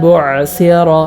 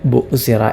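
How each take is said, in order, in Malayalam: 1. നടുവിലെ വ്യഞ്ജനം ആഴത്തിലുള്ള തൊണ്ടശബ്ദമാണ്. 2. നടുവിലെ വ്യഞ്ജനം സാധാരണ ഹംസയാണ്.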